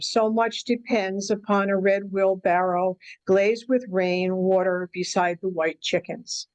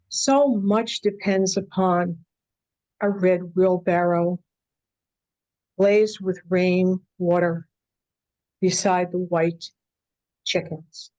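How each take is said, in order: First: It is read straight through like plain prose. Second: It is read with poetic phrasing and pauses.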